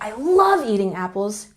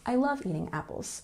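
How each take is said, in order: First: One word carries strong extra emphasis. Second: The words carry no special emphasis. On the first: The speaker likes eating apples very much. "you know that they like eating apples way more" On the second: The speaker simply likes eating apples. "than the person who says"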